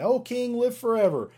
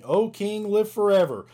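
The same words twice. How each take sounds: First: Much higher, ringing call from below; Daniel calls up from the lions' den, much higher. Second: Higher and louder, calling upward; Daniel calls up from the den, higher and louder; calling up to the king. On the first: Here comes Daniel saying. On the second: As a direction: call up out of the pit to the king. Reading Daniel's reply in scripture. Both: Acted.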